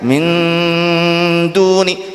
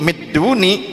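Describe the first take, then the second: First: The n is held with a nasal hum. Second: The n merges into d with no nasal hum. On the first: The speaker calls it right. "karena didengungkan min duni" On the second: The speaker calls it wrong. "kalau tidak digunakan, tidak didengungkan midduni"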